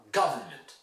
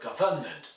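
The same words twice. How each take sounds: First: GUV-ernment, stress on the start of "government"; first-syllable stress. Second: "government" as guv-ERN-ment; wrong stress. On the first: Teacher models for students, "government" stressed on first syllable. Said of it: "the stress is on". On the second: Teacher shows students' mistake, "government" stressed on second syllable. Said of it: "it's not government". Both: Shown as a demonstration.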